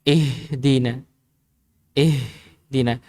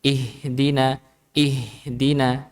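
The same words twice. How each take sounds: First: "Ihdina" with much air on the h; h from the chest. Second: "ihdina" with the h made at the base of the throat; controlled throat h in "ihdina". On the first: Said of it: "Kerasa dada yang sudah kita isi udara". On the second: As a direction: hold some breath back on the h in "ihdina". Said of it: "kalau dia pas di pangkalnya". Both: Shown as a demonstration.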